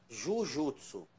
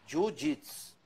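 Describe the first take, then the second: First: It is pronounced as a Brazilian would read it. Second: It is pronounced the way it is said in Japan. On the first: The speaker calls it wrong. "se você der para um brasileiro ler, ele vai falar Jujutsu, que eu já estou falando que não existe essa fonética no Japão" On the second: The speaker calls it right. "ele é pronunciado dessa forma que eu falei"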